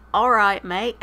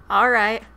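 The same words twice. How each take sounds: First: Loud, playful attempt at British; hammed-up brash British greeting; brash British accent. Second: Said in the usual way. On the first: Streamer obliging a viewer's accent request, mock British. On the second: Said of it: "Read the next paragraph in your brash British accent".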